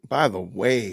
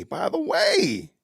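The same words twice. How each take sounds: First: Said in the usual way. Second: By the way stretched very slow, pitch higher; slow, sing-song by the way; drawn-out by the way. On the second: Shown as a demonstration. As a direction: drag out by the way lazily, lifting it up. Repeating the phrase, drawn out.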